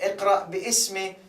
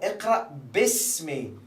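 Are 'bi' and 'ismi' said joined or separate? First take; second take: separate; joined. First: The alif is voiced, splitting bi and ismi. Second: The alif is dropped, joining them into bismi. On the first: The speaker calls it wrong. "a very common mistake which uh, a lot of uh, beginners do" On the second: The speaker calls it right. "you cancel the alif and you connect this with this"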